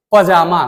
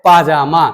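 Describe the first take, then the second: First: पजामा with a short first vowel; common mispronunciation. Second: पाजामा with a long first vowel; correct pronunciation. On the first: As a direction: say पजामा with a quick "pa". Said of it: "कुछ लोग बोलते हैं". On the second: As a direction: open पाजामा on a full "paa". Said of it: "वह होता है पाजामा". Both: Shown as a demonstration.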